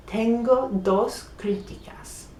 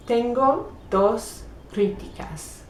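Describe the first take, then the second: First: Tengo dos críticas in a voiceless whisper. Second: Said in the usual way. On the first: Shown as a demonstration. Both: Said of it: "Tengo means I have".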